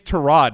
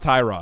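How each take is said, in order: First: The first syllable rhymes with 'tear'. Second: The first syllable rhymes with 'tie'. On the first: The speaker calls it right. "his name's Terod" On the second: The speaker calls it wrong. "not Tyrod"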